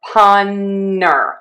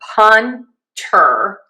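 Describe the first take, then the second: First: The T is dropped, leaving only an N. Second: The T in the middle is clearly pronounced. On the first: "punner with an N. You kind of drop that T" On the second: "You can either say punter"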